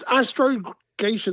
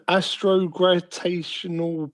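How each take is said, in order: First: Astrogation, with no R after the g; corrected pronunciation. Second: Astrogravitational said with a GRAV syllable and an R; astrogravitational, with the extra syllable and R; mispronounced word. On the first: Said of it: "There's no R". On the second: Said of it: "trying to pronounce this". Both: Real, not acted.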